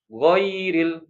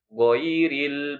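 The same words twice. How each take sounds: First: The first vowel is drawn out long. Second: The first vowel is short and soft. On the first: The speaker calls it wrong. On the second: The speaker calls it right. "harus kan ghairil"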